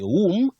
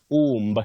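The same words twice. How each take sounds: First: The final b sound is silent. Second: A b sound is pronounced at the end. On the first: The speaker calls it right. "that B after M is silent" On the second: The speaker calls it wrong. "not womb. Many people say womb"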